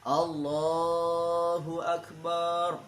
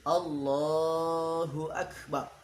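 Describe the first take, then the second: First: The vowel after b in akbar is drawn out. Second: The vowel after b in akbar is kept short. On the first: The speaker calls it wrong. "barnya dipanjangkan" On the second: The speaker calls it right. "Yang benar"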